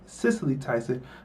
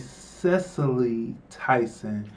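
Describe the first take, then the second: First: The first name is said the insider way. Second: The first name is said the outsider way. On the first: The speaker knows the person. The speaker calls it right. "everybody who knows Cicely Tyson would pronounce the name Cicely" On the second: The speaker is unfamiliar with the person. The speaker calls it wrong. "The white people pronounce the, the name Cecily"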